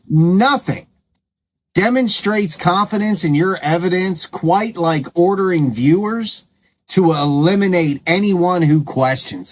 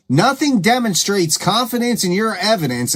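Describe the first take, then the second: First: Said in the usual way. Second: Sing-song sarcasm, higher, lilting on each word; mock the claim with exaggerated lilting emphasis; sarcastic. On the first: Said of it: "I'm gonna say it again". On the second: Real, not acted. Host repeating her point to viewers, openly sarcastic. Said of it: "I am being sarcastic".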